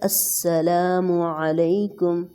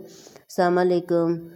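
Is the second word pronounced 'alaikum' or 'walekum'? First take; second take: alaikum; walekum. First: It is said as 'assalamu alaikum' with a final u. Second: It is said as 'assalam walekum' with a w sound. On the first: The speaker calls it right. "जो सही Arabic word है" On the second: The speaker calls it wrong. "अक्सर गलत बोलते हैं। अस्सलाम वालेकुम ऐसे कुछ भी बोल देते हैं।"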